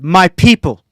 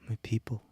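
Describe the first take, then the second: First: It is said loudly. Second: It is mumbled quietly.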